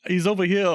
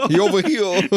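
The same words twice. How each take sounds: First: Over here said with an l for the r; "He's over here" with "here" as "hil"; says w for r. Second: "He over here" with "here" as "hil"; "here" said with an l instead of an r; says w for r. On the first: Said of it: "So he sounds like". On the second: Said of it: "couldn't say his R's". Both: Retold or imitated.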